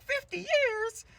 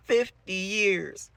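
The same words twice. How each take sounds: First: Very high, loud, drawn-out disbelief; shocked girls. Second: High, loud, very drawn-out wail; hammed-up teacher wailing each syllable slowly; crazed Miss Keen. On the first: Acted. Girls reacting to the teacher's news, high stunned squeal. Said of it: "And they're like". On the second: Broken teacher repeating herself, loud slow high wail. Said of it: "She goes".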